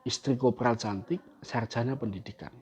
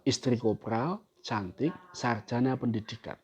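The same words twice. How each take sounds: First: There is a pause after the word cantik. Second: There is a pause after the word kopral. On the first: The corporal is beautiful and the wife holds an education degree. "Yang kedua" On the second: The wife is beautiful and holds an education degree.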